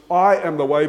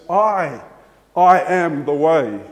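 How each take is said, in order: First: Said in the usual way. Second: 강조된 "I, I"; stress on the double I. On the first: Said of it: "it's not just". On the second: Shown as a demonstration. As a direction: repeat "I" then stress it, slowly. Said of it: "he actually says that word".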